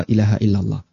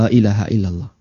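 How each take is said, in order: No difference in how they are said.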